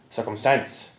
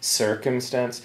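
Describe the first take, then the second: First: The stress is on the final syllable. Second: The stress is on the first syllable. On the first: "the stress on the final syllable" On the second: "American English, it will be circumstance"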